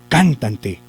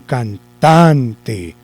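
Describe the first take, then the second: First: The stress is on the first syllable. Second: The stress is on the middle syllable. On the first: The speaker calls it wrong. "Vamos a hacer de cuenta que lo lleva en can" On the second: The speaker calls it right. "Entonces la corremos. ... Parece que ahí sí"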